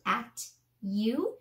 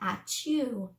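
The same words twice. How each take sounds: First: The two words are said apart, with a plain t. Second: The words run together with a ch sound. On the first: "turn at, y, you" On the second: "making that ch sound"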